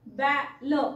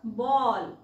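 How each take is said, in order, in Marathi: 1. हा स्वर सपाट "ae" आवाज आहे. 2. हा स्वर गोलाकार "aw" आवाज आहे. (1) "बॅल बॅ का नाही वाचायचं" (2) "बॉलला बॉ का वाचायचंय"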